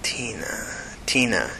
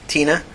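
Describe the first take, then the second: First: Hushed, half-whispered TINA, falling away; mumbling to himself. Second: Higher, short answer rising at the end; answering with name. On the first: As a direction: turn the name over under your breath. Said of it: "he mumbled to himself". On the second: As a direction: offer the name TINA on a lifted pitch. Tina answers with her name. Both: A narrator's reading.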